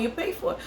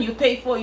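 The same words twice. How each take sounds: First: "pay" pitched much higher, softer, rising at the end; softer, higher second take with a rising lilt; high rising repeat. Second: Said in the usual way. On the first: Shown as a demonstration. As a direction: echo it back high and questioning. Echoing own line with a rise.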